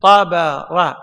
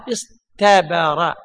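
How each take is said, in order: First: Said in the usual way. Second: اصطبر stretched slowly with a clear ط; slow teaching pronunciation. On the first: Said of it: "مثلًا". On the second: Shown as a demonstration. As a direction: drag out اصطبر so the طاء stands out. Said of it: "أصل الطاء هذه تاء،". (نطق اصطبر ببطء مع إبراز الطاء)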